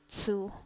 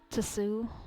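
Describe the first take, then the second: First: The initial T sound is left silent. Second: The initial T sound is pronounced.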